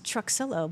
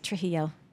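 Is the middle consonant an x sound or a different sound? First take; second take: x sound; different sound. First: The middle consonant is pronounced as an x. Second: The middle consonant is not pronounced as an x. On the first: This is how the family name is said. The speaker calls it right. "you pronounce the X and the L's" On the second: This is how most people say the name. The speaker calls it wrong. "everybody wants to say Trujillo"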